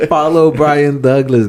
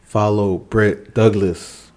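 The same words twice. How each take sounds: First: Slow, louder correction, Brian stressed; correcting the name. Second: Said in the usual way. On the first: Real, not acted. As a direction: say "Brian Douglas" slowly, leaning on "Brian". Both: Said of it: "I said Britt".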